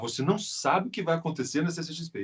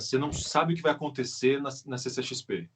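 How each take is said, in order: First: It is spoken with a raised, announcer-like tone. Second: It is spoken in a casual conversational tone. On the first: It is delivered like a headline. "Eu estou aumentando o meu tom" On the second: It is just chatting with someone. "se eu fosse falar assim, é, cara"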